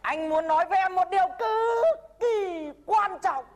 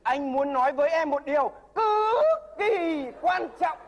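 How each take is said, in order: First: Slow, raised, earnest declaration; solemn demo line. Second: Slow, earnest repeated declaration; solemn echo. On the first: The mentor demonstrating the love declaration, slow and solemn. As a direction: announce it like a grave confession. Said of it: "Mắt nhìn thẳng vào mặt Lạng mà rằng". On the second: The nervous suitor repeating the mentor's line, slow and solemn. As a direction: copy the teacher's grave tone. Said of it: "repeats the demo". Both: Shown as a demonstration.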